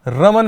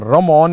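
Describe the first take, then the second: First: The second syllable has a short 'a' vowel. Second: The second syllable has an 'o' vowel. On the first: The speaker calls it right. "रमन मैक्स award" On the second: The speaker calls it wrong. "रमॉन नहीं है"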